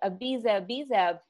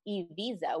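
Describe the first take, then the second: First: The first vowel is not an E sound. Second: The first vowel is an E sound. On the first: This is the usual way outsiders say it. The speaker calls it wrong. "we're used to saying it as Ibiza" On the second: This is how locals say it. The speaker calls it right. "it's Ibiza with an E"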